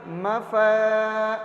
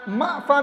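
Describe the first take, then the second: First: ما flowing into a long-held فا; gentle, without jerk. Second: ما jolted short before فا; jerky wrong reading. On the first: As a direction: ease into فا and stretch it slowly. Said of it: "آرام سے بولتے ہیں ہم". (ما فا آرام سے، کھینچ کر) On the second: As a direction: break ما off abruptly, then فا. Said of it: "اس میں جھٹکا دے دیتے ہیں". (ما، فا کو جھٹکے سے) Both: Shown as a demonstration.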